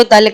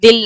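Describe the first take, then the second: First: دل said as "dal", with a short a sound; دل pronounced "dal" with a short a, as the right form; correct pronunciation. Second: دل said as "dil", with a short i sound; دل pronounced "dil" with a short i, as the wrong example; wrong pronunciation. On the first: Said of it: "دل کہنا ہے". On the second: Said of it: "دل نہیں کہنا ہے آپ کو". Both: Shown as a demonstration.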